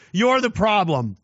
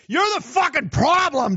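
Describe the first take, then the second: First: Said in the usual way. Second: Higher, yelled accusation with You're hammered; angry yell. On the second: Real, not acted. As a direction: shout You're at them in disgust. Angry rant at listeners.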